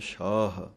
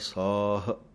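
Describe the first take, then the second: First: The word begins with an sh sound. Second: The word begins with a plain s sound. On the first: The speaker calls it wrong. "ਬਿੰਦੀ ਲਾਉਂਦੇ ਹਨ" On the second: The speaker calls it right. "ਬਿਨਾਂ ਬਿੰਦੀਆਂ ਤੋਂ ਪਾਠ ਬੋਲਣਾ ਹੈ"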